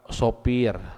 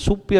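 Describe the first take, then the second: First: The first vowel sounds like 'o'. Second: The first vowel sounds like 'u'. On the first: The speaker calls it right. "sifat sopir lain supir kade" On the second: The speaker calls it wrong. "lain supir kade"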